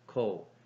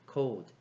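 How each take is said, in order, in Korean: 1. 단어가 d 소리 없이 끝납니다. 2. 단어가 d 소리로 끝납니다.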